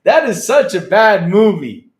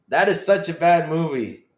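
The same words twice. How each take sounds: First: Slow, loud and high, hammed-up disgust; loud, slow mock-outraged exclamation; loud groan of disbelief. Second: Said in the usual way. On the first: Real, not acted. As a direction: drag it out loudly in mock horror.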